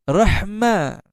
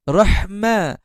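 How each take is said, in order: The two takes are said the same way.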